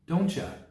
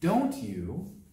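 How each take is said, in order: First: The words blend into one with a ch sound. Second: Both words are said fully and separately.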